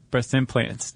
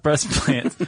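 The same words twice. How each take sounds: First: "implants" with its first syllable "im" clearly sounded; corrected pronunciation. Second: "plants" with the "im" of implants dropped; slurred mispronunciation. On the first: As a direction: say "implants" in full, keeping the "im". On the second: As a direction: run "breast" straight into "plants", no "im". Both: Shown as a demonstration. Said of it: "not breast plants".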